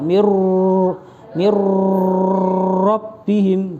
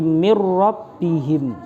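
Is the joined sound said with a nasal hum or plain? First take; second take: nasal hum; plain. First: The joined consonant is held with a nasal hum. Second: The joined consonant is said plainly without nasal hum. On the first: The speaker calls it wrong. "tidak ... bukan begitu" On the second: The speaker calls it right.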